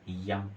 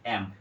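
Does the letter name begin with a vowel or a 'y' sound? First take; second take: y sound; vowel. First: It begins with a 'y' glide sound. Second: It begins directly with a vowel sound. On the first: The speaker calls it wrong. "ये भी गलत" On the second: The speaker calls it right. "उसको पढ़ना चाहिए एम"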